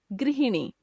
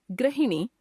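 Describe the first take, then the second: First: Said in the usual way. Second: गृहिणी as "grahini", with a; wrong pronunciation. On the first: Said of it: "शुद्ध". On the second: Shown as a demonstration. Teacher showing a common error, गृहिणी as "grahini". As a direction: replace the ri of गृहिणी with ra. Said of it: "अशुद्ध".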